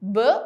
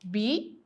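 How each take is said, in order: First: The letter is said as its short sound. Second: The letter is said by its full name. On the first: "then phonic" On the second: "First of all, letter. आपने letter का name कहना है"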